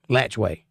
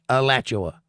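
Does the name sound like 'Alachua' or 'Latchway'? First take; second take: Latchway; Alachua. First: The name is said as 'Latchway'. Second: The name is read as it is spelled. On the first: This is how the locals say it. "everybody there called it Latchway" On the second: This is how the name is written. "spelled Alachua"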